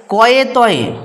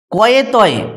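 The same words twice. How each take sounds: The two takes are said the same way.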